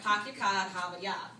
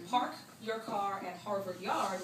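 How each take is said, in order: First: It is said with dropped R sounds. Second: It is said with R sounds pronounced.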